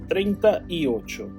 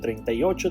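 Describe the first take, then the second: First: It is said at a slower, careful pace. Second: It is said at a faster pace.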